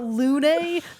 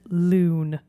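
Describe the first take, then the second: First: The vowel is a rounded French u sound. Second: The vowel is a plain English oo sound. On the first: The speaker calls it right. "but Lune, easy" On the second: The speaker calls it wrong. "the British, and we don't pronounce it loon"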